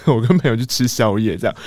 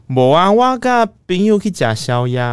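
First: Said in the usual way. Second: High, slow, sing-song lie; a teen's over-innocent excuse to mom. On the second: Retold or imitated. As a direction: drag out the alibi sweetly. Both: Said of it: "然后我就说".

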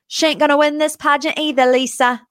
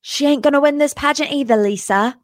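First: James Kennedy line. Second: James Kennedy line, retry. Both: Retold or imitated. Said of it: "Let me try it again".

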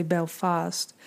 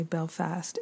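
First: "Belfast" with a broad ah in the second syllable; Maine pronunciation. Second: "Belfast" with a short flat a in the second syllable, said softly; Irish pronunciation. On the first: Telling listeners how Maine says Belfast, flat Maine vowel. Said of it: "we say Belfast". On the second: Contrasting the Irish way of saying Belfast, soft short a. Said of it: "they say Belfast". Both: Shown as a demonstration.

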